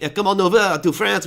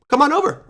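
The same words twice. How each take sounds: First: Hammed-up French accent, higher pitched; mock French host's accent, inviting people over. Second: Said in the usual way. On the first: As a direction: put on a playful French accent. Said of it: "do it in a French accent". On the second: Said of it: "I should do it in a French accent".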